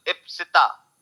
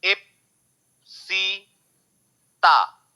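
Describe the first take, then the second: First: Said in the usual way. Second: "Ipsita" very slow, in three separate pieces; long pauses between the syllables of "Ipsita"; broken into syllables. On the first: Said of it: "three syllable". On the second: Shown as a demonstration. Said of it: "छोटे-छोटे हिस्से में जब उसका sound को आप तोड़ते हो".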